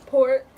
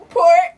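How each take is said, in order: First: Said in the usual way. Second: Loud urging. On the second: Real, not acted. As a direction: pour it, loudly and eagerly. Kids cooking, urging to pour.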